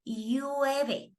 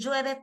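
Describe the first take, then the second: First: The double L has a coastal Ecuadorian sound. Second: The double L has a highland Ecuadorian sound. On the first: This is how people on the coast say it. "People say llueve" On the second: This is not how people on the coast say it. "people don't say llueve"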